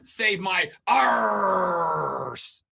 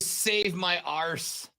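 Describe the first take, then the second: First: It is said in a pirate-style accent. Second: It is said in an attempted Irish accent. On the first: "that would be save my arse. It's different" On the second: "I can't do an Irish accent to save my arse. I can do that one too"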